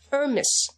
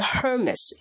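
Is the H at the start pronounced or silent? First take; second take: silent; pronounced. First: The opening H sound is silent. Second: The opening H sound is pronounced. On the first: The speaker calls it right. "法语的H 不发音" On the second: The speaker calls it wrong. "千万不要读成Hermes"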